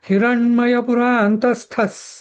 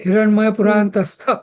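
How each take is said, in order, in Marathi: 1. शेवटचा शब्द अंतिम s ध्वनीने संपतो. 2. शेवटचा शब्द अंतिम s ध्वनीशिवाय संपतो. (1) "आपण हिरण्मय पुरांतस्थस सूर्यमंडल मध्यगा" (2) "हिरण्मय पुरांतस्थ असं न न म्हणता"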